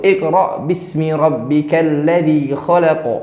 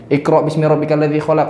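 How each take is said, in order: First: It is recited carefully following the recitation rules. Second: It is read plainly without careful recitation rules. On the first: The speaker calls it right. "Jadi memang pakai hukum tajwid" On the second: The speaker calls it wrong. "Enggak kayak gitu"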